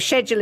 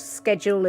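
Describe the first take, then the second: First: It begins with a soft 'sh' sound. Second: It begins with a hard 'sk' sound. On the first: "the British English" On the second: "the American English"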